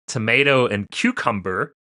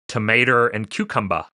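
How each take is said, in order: First: It is said without an added R sound. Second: It is said with an R added after tomato.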